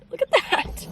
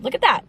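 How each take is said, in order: First: Much higher, sing-song marvel; delighted squeal. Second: Said in the usual way. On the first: Real, not acted. Showing viewers the sunrise, high delighted squeal.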